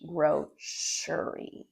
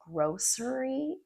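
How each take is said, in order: First: The middle consonant is an sh sound. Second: The middle consonant is an s sound. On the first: This is the North American way of saying it. "we say it as sh" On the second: This is the British way of saying it. "British people would say grocery"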